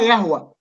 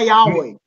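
First: The name is said the Arabic way. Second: The name is said the American way. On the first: The speaker calls it wrong. "انتوا كلكم بتنطقوا يهوى وانا رايي ان النطق ده ان انجلش غلط" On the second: The speaker calls it right. "من الامريكان اسمها ياوي"

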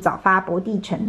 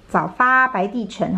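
First: The character 白 is read as bo. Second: The character 白 is read as bai.

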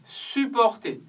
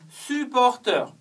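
First: It is pronounced with French sounds. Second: It is pronounced with English sounds. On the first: It is the verb meaning to support. "supporter, c'est le verbe" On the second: It is the noun meaning a fan. "c'est vraiment la prononciation anglaise"

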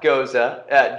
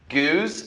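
First: The word is said as two syllables. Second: The word is said as one syllable. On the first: The speaker calls it wrong. "not Goza" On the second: The speaker calls it right. "Goose, not Goza"

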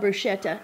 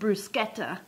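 First: The word is said with an American pronunciation. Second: The word is said with an Italian pronunciation. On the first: "here in Oklahoma ... we know bruschetta" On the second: "in Italian, they actually pronounce it bruschetta"

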